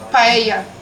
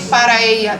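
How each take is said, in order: First: One shortened word with letters dropped. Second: Two full words with every syllable said. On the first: "They say paella. ... they don't say all the letters" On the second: "they don't say para ella"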